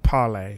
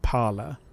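First: The word ends with an 'ay' sound. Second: The word ends with an 'er' sound. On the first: "I pronounce it Parlay, like the French for speak" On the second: "other people pronounce it like Parler"

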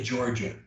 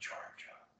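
First: The word is spoken aloud. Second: The word is whispered.

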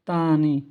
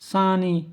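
First: The word begins with a t sound. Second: The word begins with an s sound. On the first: The speaker calls it wrong. "আমরা আগে বলতাম তানি ... এটাও ভুল" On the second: The speaker calls it right. "সানি, যার অর্থ হলো অন্য"

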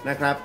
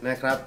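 The two takes are said the same way.

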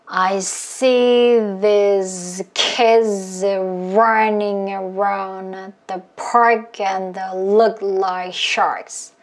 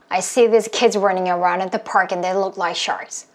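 First: The sentence is said slowly. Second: The sentence is said fast.

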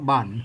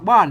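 First: The tone is low. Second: The tone is an ordinary falling tone. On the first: "อันไตลือกับไตยองบนออกเป็นเสียงเอก" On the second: "อันภาษาไทยมันออกได้แค่เสียงโท"

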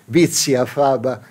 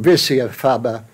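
First: It is pronounced with a German accent. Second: It is pronounced with an English accent. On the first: "in Deutsch" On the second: "in English"

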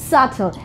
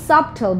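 First: No b sound is heard in the middle. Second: A b sound is heard in the middle. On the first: The speaker calls it right. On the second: The speaker calls it wrong.

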